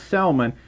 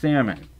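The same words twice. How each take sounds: First: The L in the word is sounded. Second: The L in the word is silent. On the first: This is how the word is spelled. "spelled salmon" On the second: This is how the word is actually said. "it's pronounced salmon"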